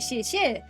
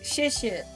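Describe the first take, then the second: First: The pitch rises on the word. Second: The pitch falls on the word. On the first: It might mean something else entirely. "like going up" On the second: It means thank you. "says thank you"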